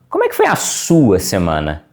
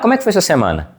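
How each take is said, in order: First: The word sua carries strong stress. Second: The word sua carries no special stress. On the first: The focus is on the other person's own week. The speaker calls it right. "a tonicidade no sua" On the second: It is a routine, perfunctory question. The speaker calls it wrong. "de maneira procedimental, como se eu estivesse dando bom dia para uma pessoa aleatória"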